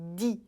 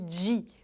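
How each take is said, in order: First: The d is plain, as in southern Brazilian speech. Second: The d sounds like dj, as in Paulistano dia. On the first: The speaker calls it right. "E sim som de di" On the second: The speaker calls it wrong. "Não é para fazer som de di, quando a gente diz dia"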